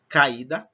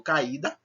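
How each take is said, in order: First: "Caída" said loud, A and I each sounded fully; both vowels strong. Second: Said in the usual way. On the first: Shown as a demonstration. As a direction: punch out "Caída" with a separate, strong I. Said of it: "as duas são pronunciadas fortes".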